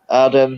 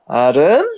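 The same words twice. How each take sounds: First: It is said in a low voice. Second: It is said in a high voice.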